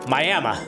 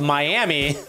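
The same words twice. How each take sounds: First: The name ends with an added 'uh' sound. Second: The name ends on an 'ee' sound.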